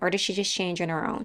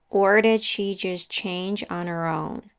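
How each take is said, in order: First: The sentence is spoken fast. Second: The sentence is spoken slowly. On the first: "And then speed up" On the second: "We start slowly"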